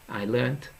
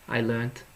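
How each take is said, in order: No difference in how they are said.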